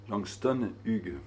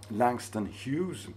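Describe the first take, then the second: First: The name is said with French pronunciation. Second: The name is said with English pronunciation.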